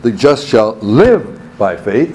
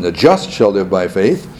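First: "live" slow and raised above the rest; stress on LIVE. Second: "just" hit firmly, the rest lower; stress on JUST. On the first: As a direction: linger on "live" as the key word. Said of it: "emphasizes the second word". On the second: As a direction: make "just" stand out early. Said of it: "Romans emphasizes the first portion". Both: Shown as a demonstration.

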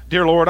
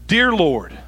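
First: Quick, perfunctory address to God; tossed-off start to a routine prayer; hurried prayer opening. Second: Deliberate, unhurried address to God; measured, solemn call to the Lord; reverent prayer opening. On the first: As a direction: rush straight through the greeting. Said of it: "It's so often that I go". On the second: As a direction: open the prayer firmly, then leave room. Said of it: "do I start my prayer life and I go". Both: Acted.

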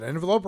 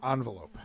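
First: "envelope" starting with EN; first-syllable EN. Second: "envelope" starting with ON; first-syllable ON. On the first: Co-host posing a pronunciation question, "envelope" said EN-velope. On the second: Co-host posing a pronunciation question, "envelope" said ON-velope. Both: Shown as a demonstration. Asks which of two pronunciations.

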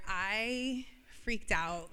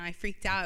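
First: Freaked stretched out, slow and weighty; slow emphatic admission. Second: Said in the usual way. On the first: Shown as a demonstration. Owning up to the church, freaked drawn out slowly. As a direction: draw out freaked, each word heavy. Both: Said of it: "I'm gonna be so honest right now".

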